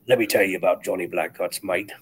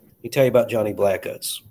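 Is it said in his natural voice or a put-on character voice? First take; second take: character voice; natural voice. First: It is said in a put-on character voice. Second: It is said in his natural voice.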